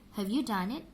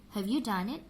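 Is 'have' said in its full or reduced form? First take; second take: reduced; reduced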